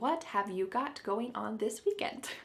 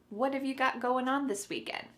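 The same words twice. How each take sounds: First: Every word is said slowly and distinctly. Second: The words are said quickly and run together.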